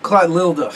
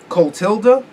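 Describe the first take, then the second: First: Clotilda garbled as "klat-LIL-duh", falling; botched "klat-LIL-duh" attempt at Clotilda; fumbled pronunciation. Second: Clotilda as "kohl-TIL-duh", rising as a question; unsure pronunciation. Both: Shown as a demonstration. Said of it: "I can't pronounce that shit".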